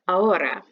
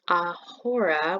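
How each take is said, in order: First: The h is silent, with no breathy sound. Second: The h is pronounced as a breathy sound. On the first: The speaker calls it right. "but it's ahora" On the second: The speaker calls it wrong. "It's not ahora, which hurts me to say"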